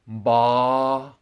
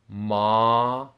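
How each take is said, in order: First: It starts with a held m gliding into b. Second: It starts with a plain m sound. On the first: The speaker calls it right. "it's ba" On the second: The speaker calls it wrong. "it's not ma"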